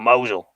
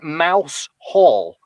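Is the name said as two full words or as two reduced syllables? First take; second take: reduced syllables; two words. First: It is said as two short syllables, mow-zul. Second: It is said as two full words, mouse and hole. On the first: The speaker calls it right. "the Cornish will correct you and say, "No, Mosul. It's pronounced Mosul."" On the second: The speaker calls it wrong. "it's spelled like Mouse Hall. But of course, if you say that"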